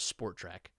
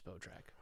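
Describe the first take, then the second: First: It is said with an R sound. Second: It is said without an R sound. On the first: The speaker calls it wrong. "I've always read it as Sport Track. ... I clearly I'm wrong" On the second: The speaker calls it right. "I've never read it as Spotrac"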